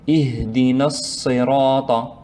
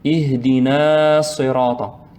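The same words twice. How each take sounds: First: The final vowel of Ihdina is short. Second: The final vowel of Ihdina is lengthened. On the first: The speaker calls it right. "on va prononcer directement" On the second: The speaker calls it wrong. "il ne faut pas prolonger, il ne faut pas dire"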